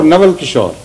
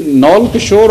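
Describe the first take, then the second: First: "Nawal" in two syllables, with a clear w; two-syllable pronunciation. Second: "Naul" as one syllable, rhyming with "owl" or "all"; contracted pronunciation. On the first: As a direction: say "Nawal" as na-wal, not run together. Offers the alternative pronunciation. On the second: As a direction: say "Naul" run together, no middle v sound. Asks which pronunciation is correct. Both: Shown as a demonstration.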